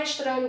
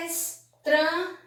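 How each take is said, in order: First: Said in the usual way. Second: ESTRANHO split as es, tra, nho; syllable by syllable. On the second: Shown as a demonstration. Teacher showing how estranho was separated, syllable by syllable. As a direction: say estranho slowly, pausing between syllables. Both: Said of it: "Veja a palavra estranho como foi separada".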